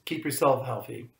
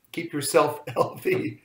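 First: "yourself" stressed, falling at end. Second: "yourself" stressed with a laugh, rising. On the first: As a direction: lean on "yourself" and fall. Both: Shown as a demonstration.

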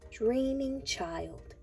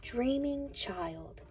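No difference in how they are said.

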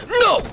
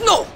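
First: High, sudden shouted refusal; defiant yell. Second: Quick, high-pitched yelped "No"; real fast no. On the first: Retold or imitated. Kid heading into the gym answers the guard, yelling defiantly. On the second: Shown as a demonstration. Showing how he answered the guard, a real fast high shout. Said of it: "no, real fast".

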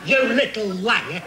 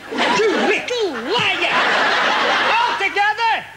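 First: Said in the usual way. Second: Singsong high taunt. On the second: Acted. Puppet accuses, repeated.

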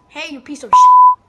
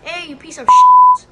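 First: Shrieked insult, very high and loud; hailing a taxi. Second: Screaming insult at the cab, very high and loud; full-throated shriek across the street; hailing a taxi. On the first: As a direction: shriek it at the top of your lungs. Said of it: "Or how about this?". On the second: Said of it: "I should censor it out". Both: Pretend.

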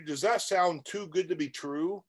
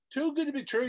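First: Said in the usual way. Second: Pitched way up in disbelief, too good; mock the idea with a high, scoffing echo of good; incredulous echo. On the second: Shown as a demonstration. Coach scoffing at viewers' dream of easy money, incredulous high echo.

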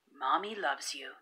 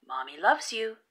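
First: Softer, lower and gentle; a tender remembered whisper of love; soft echo. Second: Said in the usual way. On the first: A narrator's reading. Mother's words echo softly.

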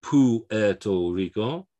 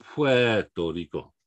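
First: "Puerto Rico" slowly as poo-EH-to Rico; drawn-out "Puerto Rico" with U as its own syllable; wrong, separated U. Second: "Puerto Rico" slowly, starting PWEH; drawn-out correct "Puerto Rico", pw at the start. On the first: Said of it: "So it's not". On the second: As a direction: glide "Puerto" into one pweh syllable. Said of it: "the U is Pue". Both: Shown as a demonstration.

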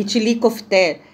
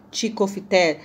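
First: Itilicofité, said in full with every syllable; corrected name. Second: Ticofité, said clipped with the first syllables dropped; mispronounced dish name. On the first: After the helper corrects her, the full itilicofité. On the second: Corrected by the helper, she says ticofité wrong. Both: Real, not acted.

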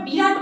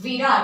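First: Said in the usual way. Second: "বিরাট" opened with v, as Virat; Hindi v/w sound. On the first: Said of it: "আমরা বিরাট বলছি না". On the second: Shown as a demonstration. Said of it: "উচ্চারণটা কিন্তু ওয়ার মতন হয়". ("বিরাট" শুরুতে ব নয়, ওয়া-র ধ্বনি)

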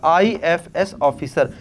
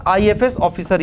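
First: "IFS officer" drawn out at half speed; slow emphatic repeat. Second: Said in the usual way. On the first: Real, not acted. Teacher repeating a term for students to remember, slow and deliberate.

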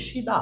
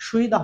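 First: সিদা said "shi-da", glide dropped; correct pronunciation. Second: সুইদা said "shwi-da", glide kept; wrong pronunciation. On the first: Teacher giving the corrected Korean word, correct pronunciation. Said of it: "হবে সিদা". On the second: Teacher repeating the form to avoid, wrong pronunciation. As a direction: read সুইদা as it is spelt. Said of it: "হবে না". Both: Shown as a demonstration.

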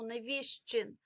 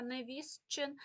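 First: Невістчин slowed, said невіщчин with no т heard; natural pronunciation. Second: Невістчин with the т clearly sounded, as written; spelling pronunciation. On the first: Teacher showing students how невістчин really sounds, no т. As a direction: let the т drop out of невістчин, slow and clear. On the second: Teacher showing students how невістчин is written, т pronounced. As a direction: say невістчин as it is spelled, the т voiced before ч. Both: Shown as a demonstration. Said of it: "ми не чуємо, але пишемо".

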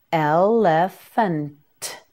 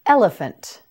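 First: "Elephant" slowly as el, le, fun, t; sound by sound. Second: Said in the usual way. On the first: Shown as a demonstration. Teacher modelling "Elephant" for learners, sound by sound. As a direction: stretch "Elephant" into separate syllables, final t alone.

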